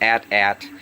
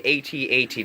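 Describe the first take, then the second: First: It is said as two short words. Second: It is spelled out as separate letters. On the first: The speaker calls it wrong. "not at-at" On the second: The speaker calls it right. "I do say AT-AT driver"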